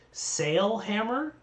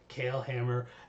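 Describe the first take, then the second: First: The first word begins with an S sound. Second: The first word begins with a K sound. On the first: "technically it should be sail hammer" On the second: "like the Gaelic name Kale"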